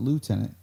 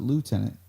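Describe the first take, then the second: First: The word is said the American way. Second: The same.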